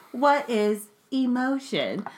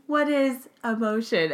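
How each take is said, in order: First: Slow, flat robotic question; deadpan like a machine. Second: Flat robotic monotone. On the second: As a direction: speak like an emotionless robot. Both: Acted. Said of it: "in my robot voice".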